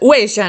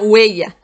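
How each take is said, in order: First: It is said with an Argentine accent. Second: It is said with a Madrid accent.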